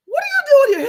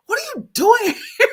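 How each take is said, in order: First: High, loud, shrieking disbelief; shocked annoyed squeal. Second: High loud laughing replay; laughing shocked squeal. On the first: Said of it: "I was so annoyed". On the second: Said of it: "I actually kinda surprised myself". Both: Retold or imitated.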